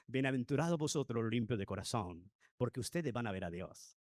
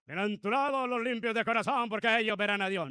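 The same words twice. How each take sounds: First: Gentle beatitude. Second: The beatitude barked out louder and higher; harsh ill-tempered preaching. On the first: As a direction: lower and softer, calm and kind. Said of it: "No, no me lo imagino así". (bienaventuranza dicha con calma, grave y suave) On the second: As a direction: deliver the blessing like a grumpy, bad-tempered preacher. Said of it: "Imaginémonos dando las bienaventuranzas". (bienaventuranzas dichas con mal genio, más fuerte y aguda) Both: Shown as a demonstration.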